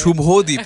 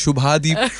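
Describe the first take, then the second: First: The vowel after 'Shubh' is an 'o' sound. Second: The vowel after 'Shubh' is an 'a' sound. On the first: This is how the name really is. The speaker calls it right. "Actually वो शुभोदीप है" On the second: This is how other people say the name. The speaker calls it wrong. "somebody say शुभादीप"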